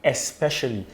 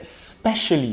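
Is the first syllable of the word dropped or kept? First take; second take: kept; dropped. First: The first syllable is kept in the word. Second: The first syllable is dropped from the word. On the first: "but not" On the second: "We sort of chip off the first um, syllable"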